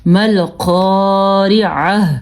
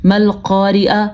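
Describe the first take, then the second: First: Slow مل قارعہ, breathing out the last ہ; audible final ha. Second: Quicker مل قارعہ cut off on "a"; final ha dropped. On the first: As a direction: stretch قا, finish مل قارعہ on "ʕah". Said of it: "ہاں کی آواز آخر میں آنی چاہیے". (مل قارعہ، آخری ہا واضح کر کے) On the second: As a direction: shorter قا, no breathed h ending مل قارعہ. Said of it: "تو بالکل غلط ہے". (مل قارعہ، آخر میں ہا کے بغیر) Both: Shown as a demonstration.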